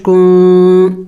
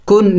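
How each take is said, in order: First: کن with the نون hidden in the nose; slow کن with nasal hidden nūn; ikhfa nasal. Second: کن with a plainly sounded نون; the wrong way, کن with an open nūn; wrong clear noon. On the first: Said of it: "نون کو ظاہر کر کے نہیں پڑھیں گے". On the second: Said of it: "کن نہیں پڑھیں گے". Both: Shown as a demonstration.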